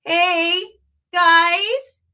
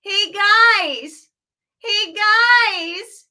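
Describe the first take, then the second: First: Whiny higher hey guys; complaining kid's call; complaining child. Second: Louder, higher whining hey guys; full whinge, high and loud; whinged up. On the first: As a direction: nag like a complaining kid. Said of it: "just say that for me". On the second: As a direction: whinge it like a nagging child. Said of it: "can you whinge that up?". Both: Shown as a demonstration.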